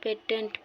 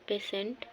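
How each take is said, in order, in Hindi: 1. बीच का व्यंजन 't' ध्वनि है। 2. बीच का व्यंजन 'sh' ध्वनि है। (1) "ढेर जना पेटेंट पढ़ना, पेटेंट नहीं" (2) "अगर सही उच्चारण हो पेशेंट"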